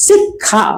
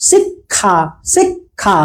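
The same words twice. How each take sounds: First: শিক্ষা said high and clear, as "শিখা" with the খ sound; pronunciation drill. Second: শিক্ষা drawn out softly, the ক্ষ sounded as খ; pronunciation drill. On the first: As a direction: say শিক্ষা slowly for the class to repeat. (শিক্ষা স্পষ্ট করে "শিখ্খা" উচ্চারণ) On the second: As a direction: repeat শিক্ষা word by word, like a teacher. (শিক্ষা ধীরে, খ এর মতো উচ্চারণ) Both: Shown as a demonstration. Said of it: "আবার আমার সাথে বলেন".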